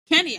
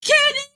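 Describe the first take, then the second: First: The name is said at a normal volume. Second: The name is shouted very loudly.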